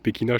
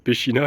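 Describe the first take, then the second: First: The middle consonant is a k sound. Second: The middle consonant is a ch sound. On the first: The speaker calls it right. "alors que c'est Pekina, je pense" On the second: The speaker calls it wrong. "j'ai dit euh, euh, Pechina"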